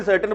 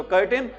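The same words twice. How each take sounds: First: सर्टेन opening on 's' where curtain needs 'k'; mistaken soft-c pronunciation. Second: कर्टेन opening on a 'k' sound; hard-c pronunciation. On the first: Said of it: "कहीं इसको भी सर्टेन बोल देते हैं". (सर्टेन, शुरू में 'स' की ध्वनि) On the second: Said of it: "ध्यान रखना इसको क्या बोलते हैं". (कर्टेन, शुरू में 'क' की ध्वनि) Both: Shown as a demonstration.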